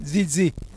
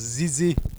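First: The name begins with a Z sound. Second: The name begins with a Z sound.

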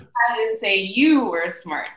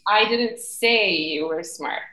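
First: The stress is on the word you. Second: The stress is on the word say.

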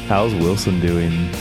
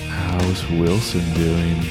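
First: The question is asked in a plain, casual way. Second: The question is asked in a creepy, unsettling way.

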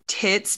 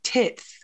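First: The final s sound is clear. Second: The final s sound is lisped.

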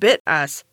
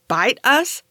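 First: The first vowel rhymes with bit, ending in us. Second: The first vowel rhymes with bite, ending in us. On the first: "I was disappointed to find that it's pronounced bit us" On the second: "I thought it was pronounced like bite us"

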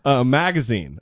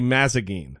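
First: The g comes before the z sound. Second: The z comes before the g sound. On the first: The speaker calls it right. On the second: The speaker calls it wrong.

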